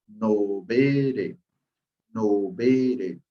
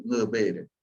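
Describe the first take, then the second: First: "no veré" said slowly with a clear "no", the typical learner error; wrong pronunciation. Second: "no veré" opening on a nasal "ng" sound, not "no"; correct pronunciation. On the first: Teacher showing students the typical error, slow "no veré". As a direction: drag out "no veré" plainly, as the common mistake. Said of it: "Prácticamente no es la forma correcta". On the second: Teacher giving learners the right form, nasal "ng" on "no veré". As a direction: start "no veré" with a single nasal "ng". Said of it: "Era solo sonido". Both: Shown as a demonstration.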